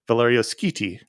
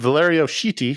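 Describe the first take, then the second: First: The surname starts with an sk sound. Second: The surname starts with an sh sound. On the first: The speaker calls it right. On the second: The speaker calls it wrong. "as we used to say"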